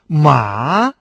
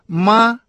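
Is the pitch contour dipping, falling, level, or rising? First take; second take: dipping; level. First: The pitch dips low, then rises. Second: The pitch stays high and level. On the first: It means horse. "третий тон" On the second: It means mother. "первый тон"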